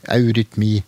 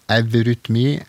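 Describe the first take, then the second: First: The word begins with the diphthong 'au'. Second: The word begins with the sound 'ev'. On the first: "nå uttaler jeg det som en diftong, au" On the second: "det har nok like ofte hatt uttalen ev"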